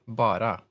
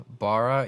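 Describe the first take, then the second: First: Bara said the Swedish way, with a tapped r; Swedish intonation. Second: Said in the usual way. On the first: Shown as a demonstration. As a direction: say Bara as the Swedish word for "just". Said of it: "with a different, uh, intonation". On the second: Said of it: "instead of, uh, Bara".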